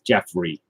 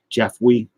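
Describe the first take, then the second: First: The middle consonant is a clear r sound. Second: The middle consonant is a w sound. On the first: "I can pronounce my R's in that context" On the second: "I'm not that kid at school pronounced it"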